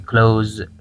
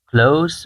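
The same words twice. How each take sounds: First: The word ends with a buzzing z sound. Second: The word ends with a hissing s sound. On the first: It means to shut something. "اگر به گونه فعل استفاده شد در اینجا صدای ز تولید میشه" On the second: It means near, describing something. "اگر به گونه صفت استفاده شود صدای س تولید میشه"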